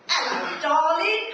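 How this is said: It sounds cheeky and playful.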